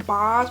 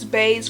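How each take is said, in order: First: The vowel sounds like the 'o' in 'boss'. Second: The vowel sounds like the 'a' in 'base'. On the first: The speaker calls it wrong. "I've been saying Boz" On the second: The speaker calls it right. "but I think it's Baze"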